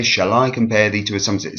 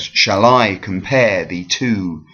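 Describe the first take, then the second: First: Shall I com-PARE thee to, run fast with a light lilt; quick iambic stress. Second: Shall I com-PARE thee TO, slow with weight on every second syllable; rising iambic stress. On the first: Teacher repeating the rising-meter example, quick iambic stress. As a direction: race through it, leaning on I and PARE. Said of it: "it goes up rather than down". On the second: Teacher contrasting iambs with dactyls, rising iambic stress. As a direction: draw out I, PARE and TO. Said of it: "that is a rising meter". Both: Shown as a demonstration.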